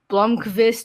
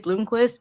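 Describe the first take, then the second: First: It is said with a Swedish pronunciation. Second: It is said with an American pronunciation. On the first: "they say like" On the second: "we say"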